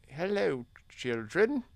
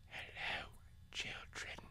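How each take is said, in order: First: It is spoken in a normal voice. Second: It is whispered very quietly.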